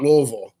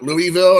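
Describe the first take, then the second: First: Louisville slurred into "LOO-vull"; local pronunciation. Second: Louisville said as "LOO-ee-vill"; outsider pronunciation. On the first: Shown as a demonstration. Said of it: "You pronounce it Louisville". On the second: Retold or imitated. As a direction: say Louisville in three clear syllables, LOO-ee-vill. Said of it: "When people say Louisville, it makes me crazy".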